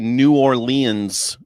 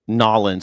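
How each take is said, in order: First: The name is said in full syllables. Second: The name is squeezed into two syllables. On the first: This is how outsiders say it. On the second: This is how locals say it.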